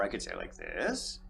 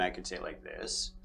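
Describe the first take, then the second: First: THIS lifted into a questioning rise; upspeak. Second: Said in the usual way. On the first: Shown as a demonstration. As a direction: end on THIS with the pitch swinging up, softly. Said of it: "like an upspeak, right?". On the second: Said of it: "if I say a thing and".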